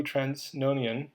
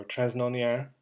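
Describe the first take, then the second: First: Transnonain with a clear final n; anglicized pronunciation. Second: Transnonain with the final n dropped; alternative French-style pronunciation. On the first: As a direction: say Transnonain the English way, ending "-nian". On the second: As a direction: end Transnonain on an open French-like vowel, "-nia". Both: Real, not acted. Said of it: "and, or Transnonain".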